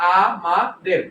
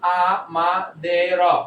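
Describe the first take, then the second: First: The word is split into three separate parts. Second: The word is split into four separate parts. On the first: The speaker calls it right. "তাহলে উচ্চারণ বিকৃত হচ্ছে না" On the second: The speaker calls it wrong. "But আমি যদি বলি আ মা দে র ... কেমন হয়ে যায়?"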